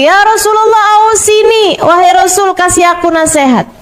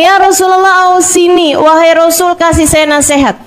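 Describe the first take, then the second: First: Much higher, more insistent asking; young man asking again. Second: Put-on a young man's raised, eager request to the Prophet; young man asking. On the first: Retold or imitated. Young man asks the Prophet again, higher and more insistent. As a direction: press the Prophet again, pitched well up. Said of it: "dia nanya lagi". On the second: Young man asks the Prophet for advice, raised and eager. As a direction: ask the Prophet for advice, a little higher. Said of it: "Dia bilang".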